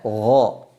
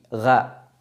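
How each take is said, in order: First: The syllable sounds heavy and full. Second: The syllable sounds light and thin. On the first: The speaker calls it right. "Harusnya gho" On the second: The speaker calls it wrong. "keliru kalau huruf ghain dibaca gha"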